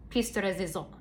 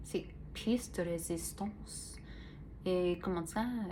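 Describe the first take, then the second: First: A lightly tried French accent on piece de résistance; mock French, half-hearted. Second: Slow, softer French accent, hammed-up but light; mock French accent. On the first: Lightly French-accented phrase to the viewers. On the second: Slow soft mock French accent for her podcast listeners. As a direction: try a bad French accent. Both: Shown as a demonstration. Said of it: "I try to do the French".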